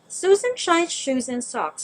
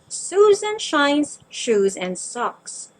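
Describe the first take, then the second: First: It is said fast. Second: It is said at a moderate pace.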